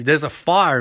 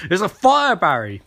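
First: Said in the usual way. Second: Hammed-up alarm, then flat on the name; urgent warning. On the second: [name] repeating the warning.

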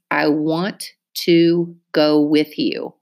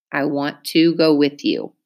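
First: Slow, even, word by word; slow dictation. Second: Said in the usual way. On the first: Shown as a demonstration. Teacher dictating to class, slow and careful. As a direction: read I want to go with you slowly, each word on its own. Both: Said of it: "Listen to me use it in a sentence".

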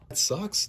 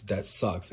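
First: Squeaked up high and whiny. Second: Said in the usual way. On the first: Real, not acted. Repeated complaint, first take squeaked.

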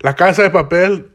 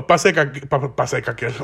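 First: "La Casa de Papel" said cleanly with the Spanish la kasa papel; correct pronunciation. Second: "Pase Caquel" stumbled out, the title garbled into Pase Caquel; stumbling mispronunciation. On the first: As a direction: get "La Casa de Papel" right, every syllable clear. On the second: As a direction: trip over "Pa-, Pase Caquel" as you fumble the name. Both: Real, not acted. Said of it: "look at how fucking stupid I sound".

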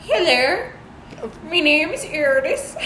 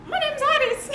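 First: Slightly raised attempt at a Danish accent; mock Danish accent. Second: Very high-pitched attempt at a Danish accent; mock Danish accent. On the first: Second try at the Danish girl's introduction, milder mock accent. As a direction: imitate a Danish girl, putting on her accent. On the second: Imitating a girl from Denmark introducing herself, exaggerated high accent. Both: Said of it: "she was like".

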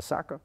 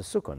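First: Saka said as "SAH-kuh", open "ah" vowels, mispronouncing the word; deliberately mangle saka as a wrong reading; mock wrong saka. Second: Sukkah said with a short "u", stress on the last syllable, "soo-KAH"; correct Hebrew sukkah. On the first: Teacher mocking the wrong pronunciation to students, saka said lightly. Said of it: "Nobody calls it a saka". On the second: Teacher giving students the correct pronunciation, sukkah said carefully. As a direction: give sukkah its proper Hebrew vowels. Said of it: "not a saka". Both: Shown as a demonstration.

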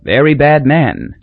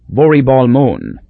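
First: Said in the usual way. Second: "Voribal Mon" said slow in island dialect. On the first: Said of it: "said the driver". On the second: Acted. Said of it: "What he actually said was".

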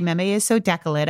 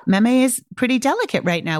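First: "decolate" said DEK-uh-let; toddler's slip "decolate" repeated in a usual voice; mispronounced delicate. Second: Said in the usual way. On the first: Shown as a demonstration. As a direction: swap the middle sounds to say "decolate". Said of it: "Don't reflect back the wrong word". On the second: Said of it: "I'd say".

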